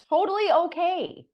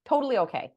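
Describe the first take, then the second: First: Higher, louder and slow, sing-song totally okay; breezy brush-off. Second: Said in the usual way. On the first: Real, not acted. Telling listeners the client never answered, a breezy brush-off. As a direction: wave it off with exaggerated cheer.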